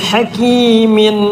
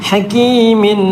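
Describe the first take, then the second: Both takes have the same delivery.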